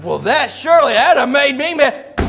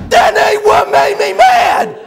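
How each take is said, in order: First: Said in the usual way. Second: Slow, high, furious mock bellow; hammed-up tongue-tied roar; Buddy. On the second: Buddy corrects the preacher, bellowing in worked-up rage. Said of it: "when he gets real worked up".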